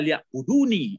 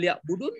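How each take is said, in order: First: The word ends with an added i vowel. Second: The word ends on a bare n sound. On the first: The speaker calls it right. "Ya sebaiknya" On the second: The speaker calls it wrong. "kalau dihilangkan eh pakai mati nunnya fatal"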